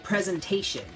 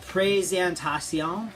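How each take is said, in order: First: It is said with English pronunciation. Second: It is said with French pronunciation. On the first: "in English, we would say presentation" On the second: "this is the word uh, présentation"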